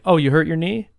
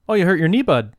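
First: It is said in the speaker's normal voice. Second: It imitates the guy's inflection, ending with bud.

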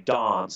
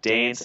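First: It is said with a South Australian accent. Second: It is said with an eastern Australian accent.

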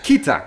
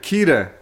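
First: The T sound is clearly pronounced. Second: The T sound is weak or dropped. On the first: The speaker calls it right. "Just say the T" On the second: The speaker calls it wrong. "I've been saying it wrong"

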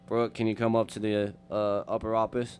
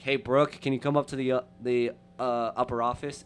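First: It is said in a deepened voice. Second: It is said in a normal voice.

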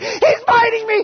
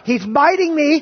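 First: It is screamed at full volume. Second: It is said louder, with rising urgency.

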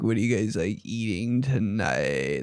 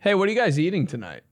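First: It is said in a husky, sore-throat voice. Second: It is said in the speaker's normal voice.

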